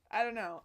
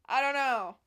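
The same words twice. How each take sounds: First: Said in the usual way. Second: Loud giddy shout; loud excited cry. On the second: Real, not acted. Vlogger giddy over her outfit, loud shout. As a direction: blurt it out loud with delight.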